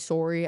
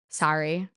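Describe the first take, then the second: First: It is said with a Canadian vowel. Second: It is said with an American vowel. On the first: This is how the speaker normally talks. "Instead of saying sorry" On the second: The speaker is pretending to be from elsewhere. "pretending I'm American"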